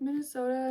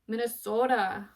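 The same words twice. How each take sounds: First: It is said in a plain, ordinary accent. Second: It is said in an exaggerated regional accent. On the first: This is how the speaker really says it. "And then I'm like" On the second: This is how others imagine the speaker sounds. "how do they say it? Minnesota or something like that. I know for a fact I don't sound like that"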